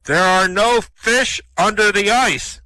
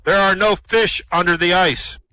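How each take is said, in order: First: Very slow, loud, higher booming voice. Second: Loud booming voice from above. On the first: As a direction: boom each word out slowly from on high. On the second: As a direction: boom it out like a voice from the heavens. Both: Acted. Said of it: "he hears this booming voice".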